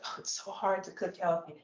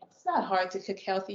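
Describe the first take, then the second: First: Quiet whiny mocking of an excuse; mock whiny complaint. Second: Not hit firmly, flat falling statement; stress on not. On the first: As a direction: sigh it out like a lazy excuse. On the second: Real, not acted. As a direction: push the word not, set the excuse straight.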